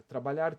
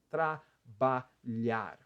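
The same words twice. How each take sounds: First: Said in the usual way. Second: "Trabalhar" very slowly in three pieces, tra-ba-lhar; three mouth movements. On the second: Shown as a demonstration. Teacher showing three mouth movements, "Trabalhar" syllable by syllable. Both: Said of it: "Três movimentos de boca".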